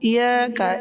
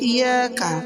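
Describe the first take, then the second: Both takes have the same delivery.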